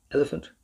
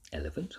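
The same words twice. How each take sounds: First: Bright raised question, a touch higher; tossing out an absurd size with a lift; the professor teasing with a lilting question; playful question. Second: Soft inward repeat, lower and softer; quiet private echo. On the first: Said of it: "Now, what size is it?". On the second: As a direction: murmur it to yourself, amused. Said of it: "thought Rosa to herself". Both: A narrator's reading.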